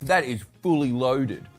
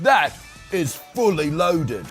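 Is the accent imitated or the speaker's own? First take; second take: own; imitated. First: It is said in the speaker's own accent. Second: It is said in an imitated TV presenter's accent.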